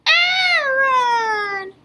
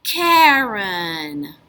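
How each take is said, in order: First: High puppet Aaron with no k; squeaky Aaron missing the k; first sound dropped. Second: Said in the usual way. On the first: Pretend. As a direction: say Karen as Aaron, leaving off the k. Puppet drops K.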